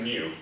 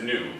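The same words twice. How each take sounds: First: The vowel starts with a y glide, yoo. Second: The vowel is a plain oo sound. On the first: This is the proper diction form. The speaker calls it right. "But it's actually new" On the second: This is the casual everyday form. The speaker calls it wrong. "Colloquially, we say that as new"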